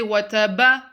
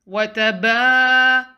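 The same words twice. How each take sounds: First: The ba vowel is short. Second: The ba vowel is drawn out. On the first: The speaker calls it wrong. "Don't say" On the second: The speaker calls it right. "Prolong the ba"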